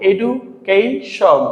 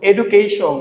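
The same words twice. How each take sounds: First: "education" very slowly as edu, kei, shon; split into syllables. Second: Said in the usual way. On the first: Shown as a demonstration. Teacher showing learners the parts, "education" slowly split edu, kei, shon. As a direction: break "education" into parts with pauses. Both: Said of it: "তিনটি অংশ থাকে".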